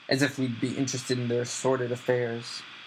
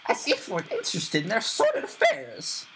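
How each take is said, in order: First: It is said in Uncle Vernon's voice. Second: It is said in Aunt Petunia's voice.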